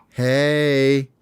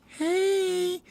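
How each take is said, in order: First: Lightly raised, smooth hey; Hope's casual hey. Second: Very high, soft squeaky hey; shy little bird answering; girl bird's hey. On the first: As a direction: play it cool to the girl. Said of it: "and he goes". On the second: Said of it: "and she goes". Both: Acted.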